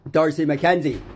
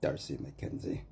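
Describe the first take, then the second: First: Shouting his name. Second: Low, quiet name. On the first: A speaker shouting the name of the man who owes him, loud. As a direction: bellow the name high and loud. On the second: A man muttering the name of the man who wronged him, quiet. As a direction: say the name lower and softer. Saying the name after outbursts. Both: Real, not acted.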